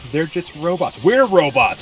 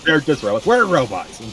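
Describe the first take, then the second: First: High, rising to loud on We're robots; incredulous, building to a shout; rising indignant cry; exasperated. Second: High, loud mock outrage; pitched-up, loud indignant shout; exasperated. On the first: First take of the outburst. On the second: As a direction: shout him down in disbelief. Repeats the outburst. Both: Real, not acted.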